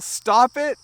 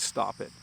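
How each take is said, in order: First: It is yelled loudly. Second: It is said quietly and calmly. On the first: The speaker is really annoyed. "you would probably yell" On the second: The speaker wants it to stop politely. "In a calm voice"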